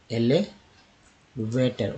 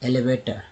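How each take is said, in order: First: elevator stretched slowly, टर clear; slow syllable demo. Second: Said in the usual way. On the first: Shown as a demonstration. Teacher slowly modelling elevator. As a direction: draw out elevator. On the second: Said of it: "next देखिए".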